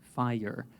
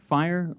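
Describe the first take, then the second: First: The word is said as two syllables. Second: The word is said as one syllable. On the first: "or you can say it as fire" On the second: "You can say it as like one"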